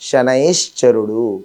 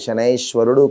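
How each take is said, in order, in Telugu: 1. మధ్య భాగాన్ని 'shcha' ధ్వనితో పలుకుతారు. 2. మధ్య భాగాన్ని 'shwa' ధ్వనితో పలుకుతారు. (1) "శనైశ్చరుడు అని మనం పలకాలి" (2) "శనైశ్వరుడు కాదు"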